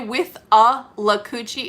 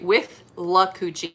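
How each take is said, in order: First: The name has an extra syllable after 'with'. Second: The name has no extra syllable after 'with'. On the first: This is how locals usually say it. The speaker calls it wrong. "we always mispronounce this" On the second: This is the correct pronunciation. The speaker calls it right. "It's actually with la coochie"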